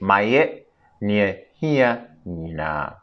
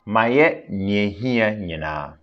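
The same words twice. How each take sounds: First: It is said slowly. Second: It is said at normal speed.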